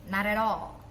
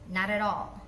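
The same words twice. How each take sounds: The two takes are said the same way.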